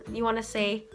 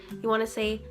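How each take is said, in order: No difference in how they are said.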